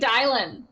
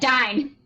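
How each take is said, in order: First: The name is said with an added L sound. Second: The name is said without an L sound. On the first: The speaker calls it wrong. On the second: The speaker calls it right.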